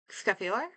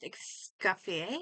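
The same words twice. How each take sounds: First: "Escoffier" ending in "ee-OR", rising as a question; anglicised pronunciation. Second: "Escoffier" ending in "ee-AY", rising as a question; French-style pronunciation. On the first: Streamer trying another reading, "Escoffier" ending in "ee-OR". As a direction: say "Escoffier" as skof-ee-OR, unsure. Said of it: "I'm gonna go with". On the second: Streamer guessing a French name, "Escoffier" ending in "ee-AY". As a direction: say "Escoffier" as es-kof-ee-AY, unsure. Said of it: "I think her name's pronounced". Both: Shown as a demonstration.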